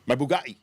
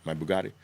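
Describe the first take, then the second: First: Louder, boastful "My Bugatti"; hammed-up bragging rich kid; showing off the car to the camera, mock brag. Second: Lower, offhand mock brag of "My Bugatti"; a hint of a young show-off; lightly voiced flashy influencer. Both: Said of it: "That's how they say it now".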